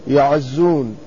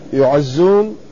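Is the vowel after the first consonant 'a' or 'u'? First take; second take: a; u. First: The first syllable has an open 'a' vowel. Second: The first syllable has a rounded 'u' vowel. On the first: The speaker calls it right. "يكون الياء مفتوحة، يعزون لا يعزون" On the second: The speaker calls it wrong. "لا يعزون، يكون هذا مبني للمجهول"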